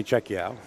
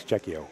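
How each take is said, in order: First: "Czechio" ending in ow, as in cow; joking mispronunciation. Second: "Czechio" ending in a long oh; correct pronunciation. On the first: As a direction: say "Czechio" as CHECK-ee-ow. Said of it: "That's just the way I am". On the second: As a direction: say "Czechio" as CHECK-ee-oh. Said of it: "No, it is Czechio". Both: Shown as a demonstration.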